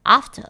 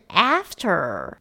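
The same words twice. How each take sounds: First: British pronunciation. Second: American pronunciation. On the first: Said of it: "英式口音可能会变after". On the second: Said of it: "美式的呢，A比较像是蝴蝶音的A". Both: Shown as a demonstration.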